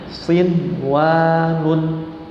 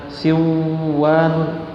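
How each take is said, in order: First: The n is pronounced clearly before the w. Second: The n merges into the following w sound. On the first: The speaker calls it right. "melainkan harus dibaca izhar" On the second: The speaker calls it wrong. "tidak boleh dibaca siwan, tidak boleh"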